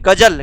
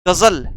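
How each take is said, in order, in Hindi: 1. व्यंजन हिंदी के सादे तरीके से बोले जाते हैं। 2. व्यंजन नुक्ते वाली आवाज़ों के साथ बोले जाते हैं। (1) "इसको हम नॉर्मल पढ़ेंगे" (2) "नुक्ते का प्रयोग हुआ"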